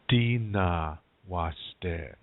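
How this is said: The first word begins with d, then n. This is the Nakota dialect form. "In Nakota, you say dina washte"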